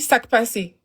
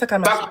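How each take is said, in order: First: It is said as 'sak pase'. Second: It is said as 'sak a mache'. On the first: The speaker calls it right. "on dit sac passé" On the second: The speaker calls it wrong. "pas sac à mâcher"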